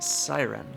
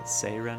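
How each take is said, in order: First: It is said like the English word siren. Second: It is said with a Japanese 'sei' first syllable.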